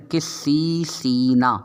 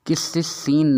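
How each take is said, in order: First: قسیسینا with two drawn-out ee sounds; both long vowels stretched. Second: قسیسین with only the last vowel long; imitated misreading, madd too short. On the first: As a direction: say قسیسینا very slowly, "qis-seee-seee-na". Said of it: "یا مدہ دو مرتبہ آ رہا ہے". (قسیسینا میں دونوں یا مدہ خوب کھینچ کر پڑھیں) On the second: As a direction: say قسیسین with a short middle syllable, "qis-si-seen". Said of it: "قسیسین نہیں ہے". (قسیسین کی درمیانی یا کو کھینچے بغیر پڑھیں) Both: Shown as a demonstration.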